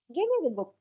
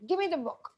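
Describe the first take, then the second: First: The tone is soft and pleasant. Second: The tone is authoritative and irritated. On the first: It is a polite request. The speaker calls it right. "I have softened my tone. My voice or tone has become softer" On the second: It is an order. The speaker calls it wrong. "The tone that I have used is slightly authoritative and probably even I have got irritated"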